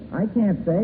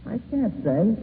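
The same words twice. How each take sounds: The two takes are said the same way.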